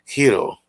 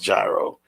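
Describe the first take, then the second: First: It is said the original Greek way. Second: It is said the usual New York way. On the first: The speaker calls it right. "It's pronounced gyro. ... the actual pronunciation" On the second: The speaker calls it wrong. "It's not pronounced gyro. ... like everyone else does in New York"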